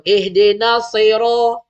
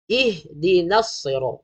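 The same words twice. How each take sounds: First: Loud "ihdina" as "ehdena"; wrong vowels. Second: Slow "Ihdinas" with clear i; correct vowels. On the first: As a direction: recite "ihdina" with slack "e" vowels. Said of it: "bukan E H". (baca "ihdina" jadi "ehdena") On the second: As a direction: recite "Ihdinas" cleanly, drawn out. (baca "Ihdinas" perlahan, "i" jelas) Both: Shown as a demonstration.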